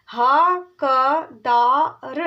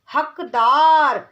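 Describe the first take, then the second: First: हकदार drawn out very slowly, each syllable separate. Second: हकदार said whole, slow and firm, louder; whole word. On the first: Teacher sounding out हकदार slowly for a child. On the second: Teacher blending हकदार into one word. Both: Shown as a demonstration. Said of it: "ये हैं चार वर्णों वाले शब्द".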